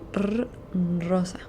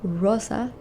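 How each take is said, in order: First: The R is said as a rolled Spanish R. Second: The R is said like an English R. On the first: The speaker calls it right. "You try and say r rosa" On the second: The speaker calls it wrong. "Remember not to say rosa"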